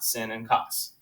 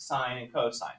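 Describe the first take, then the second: First: The words are said 'sin' and 'coss'. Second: The words are said 'sign' and 'co-sign'. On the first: The speaker calls it wrong. "It's not sin and cos" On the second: The speaker calls it right. "are still pronounced sine and cosine"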